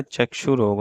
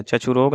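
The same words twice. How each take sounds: First: Said in the usual way. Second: चक्षुरोग with chh for ksh; wrong pronunciation. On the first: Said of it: "होता है". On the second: Shown as a demonstration. Teacher shows students the error, चक्षुरोग said as chachhurog. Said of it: "नहीं होता है".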